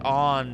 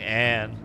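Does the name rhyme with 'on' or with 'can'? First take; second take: on; can. First: The name has an open 'ah' vowel, like 'on'. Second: The name has a flat 'a' vowel, like 'can'. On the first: The speaker calls it right. "her name is pronounced like On" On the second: The speaker calls it wrong. "but I like saying Anne"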